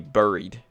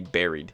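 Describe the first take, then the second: First: The first vowel sounds like the vowel in 'boo'. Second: The first vowel sounds like the vowel in 'bed'. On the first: This follows the spelling with a U. "it should be buried because it's it's a U" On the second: This is the usual way people say it. "why do we say buried?"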